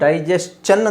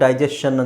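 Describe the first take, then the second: First: The ending is said with an 'st' sound. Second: The ending is said with a 'sh' sound. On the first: The speaker calls it right. "ಇದು ಡೈಜೆಸ್ಟನ್ ಅಂತ ಹೇಳಬೇಕು" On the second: The speaker calls it wrong. "ಡೈಜೆಷನ್ ಅಂತ ಹೇಳ್ತಾರೆ ತುಂಬ ಜನ"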